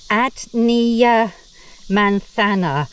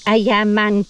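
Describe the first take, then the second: First: Every written syllable of the name is sounded out. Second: The name is said with sounds dropped and merged. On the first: The speaker calls it wrong. "That's how it's spelt" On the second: The speaker calls it right. "but it's more like"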